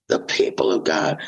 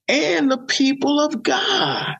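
First: Much lower, breathy whispered repeat; hushed reverent repeat; whispered echo. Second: High, slow, stretched-out preaching line; drawn-out emphasis. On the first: Echoing the phrase right after. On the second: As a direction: lift it and stretch each word. Preacher repeating a phrase for emphasis. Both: Real, not acted.

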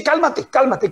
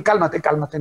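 First: Brisk teasing "cálmate, cálmate", pitched up; a playful hold-on-there "cálmate"; mock calm down. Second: Soothing calm down. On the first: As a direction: tease a hasty reader with "cálmate". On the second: Pretend. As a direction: settle them down gently.

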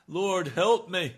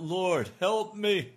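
First: Slow, louder and higher desperate plea; pleading cry. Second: Slow, louder desperate plea; pleading cry. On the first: Preacher voicing the sinner's plea again, slow and loud. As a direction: beg for help with everything you have. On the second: Preacher voicing the sinner's plea, a slow loud cry. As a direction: cry out to the Lord for rescue. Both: Pretend. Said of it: "and to cry out".

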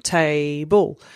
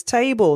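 First: "Table" split into two beats, "Ta" then "ble"; jumped syllables. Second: Said in the usual way. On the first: Shown as a demonstration. Parent jumping out syllables with a child, "Table" in two beats. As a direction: hop once on "Ta" and once on "ble". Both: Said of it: "and then you jump".

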